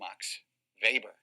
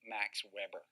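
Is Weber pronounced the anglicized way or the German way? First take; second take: German; anglicized. First: Weber is pronounced the German way. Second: Weber is pronounced like the English grill brand. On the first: The speaker calls it right. "he's German, and uh, we call him Max Weber" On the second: The speaker calls it wrong. "people will laugh at you if you say Max Weber"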